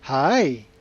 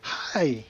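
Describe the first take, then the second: First: The pitch dips down and then rises. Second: The pitch falls through the word. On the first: "kind of a roller coaster tone" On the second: "you've got a dropping tone"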